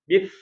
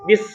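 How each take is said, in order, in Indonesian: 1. Ujung lidah menjulur di antara gigi. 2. Desis dibuat di belakang gigi. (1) "kalau sa sini bis" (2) "Tapi kalau sin sini bis"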